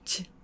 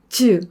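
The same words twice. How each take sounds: First: The vowel is weakened to a puff of air. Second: The vowel after the consonant is fully voiced. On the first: "약하게 하면" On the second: "즈 할걸"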